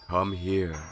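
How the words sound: It is said softly and gently.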